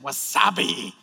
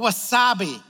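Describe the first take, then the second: First: It is said in an exaggerated, drawn-out put-on voice. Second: It is said in a plain, ordinary speaking voice. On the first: It imitates an old catchphrase commercial. "I always want to say it like wasabi, like that. Like the old commercial" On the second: It is the normal way to say the word. "but wasabi"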